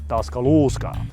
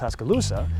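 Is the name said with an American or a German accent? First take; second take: German; American. First: It is said with a German-sounding pronunciation. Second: It is said with an American English pronunciation. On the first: "the Germans, they pronounce it" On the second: "You and I would pronounce it"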